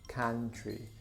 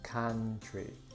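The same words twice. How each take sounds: The two takes are said the same way.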